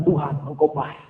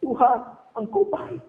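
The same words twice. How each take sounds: First: Low, soft prayer to God; quiet declaration. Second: Slow, soft, raised pitch; mock weeping while still praising; imitated tearful prayer. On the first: Acted. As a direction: say it humbly, low and hushed. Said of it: "Tapi duduk katakan". (doa pelan bernada rendah) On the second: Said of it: "Saya terus semua menangis". (pura-pura berdoa sambil menangis, pelan)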